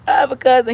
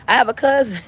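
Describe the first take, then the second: First: Laughing. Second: Said in the usual way. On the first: Real, not acted. Repeat with laugh.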